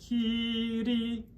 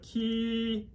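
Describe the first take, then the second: First: The R is a single quick tap. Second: The R is a smooth American-style R. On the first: The speaker calls it right. "if we flip it one time" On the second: The speaker calls it wrong. "We don't want the American R"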